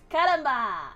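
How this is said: It is said with an attempted Spanish accent. "I could try to say it with more of an accent"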